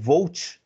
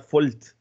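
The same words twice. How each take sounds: First: It is said with a plain Portuguese pronunciation. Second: It is said with a German pronunciation.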